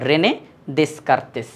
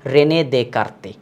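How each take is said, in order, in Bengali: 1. পদবিতে s ধ্বনিগুলো উচ্চারিত হয়। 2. পদবিতে s ধ্বনিগুলো নীরব।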